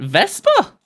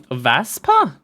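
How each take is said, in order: First: "Vespa" with an E, like the scooter brand, rising; retry the word as "Vespa" with an E, ending on a questioning rise; corrected reading. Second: "Vaspa" tried with a flat A, like "vass-pa"; unsure reading. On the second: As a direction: read "Vaspa" as a hesitant first guess with an A sound. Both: Shown as a demonstration.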